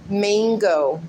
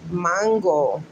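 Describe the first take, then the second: First: Mango as MAYNG-go, with a flat English A; American English pronunciation. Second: Mango as MAHN-go, Spanish accent; Spanish pronunciation. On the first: Mimicking how others say it, mango as MAYNG-go. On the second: Showing how she grew up saying it, Spanish accent. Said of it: "That's how I grew up pronouncing it". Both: Shown as a demonstration.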